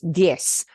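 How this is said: The word ends with a hissing s sound. "but Latin America, it's diez, like an S sound"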